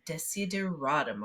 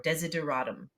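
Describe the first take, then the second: First: The word is said slowly and in full. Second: The word is said quickly and run together.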